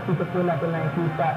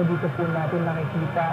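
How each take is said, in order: Both takes have the same delivery.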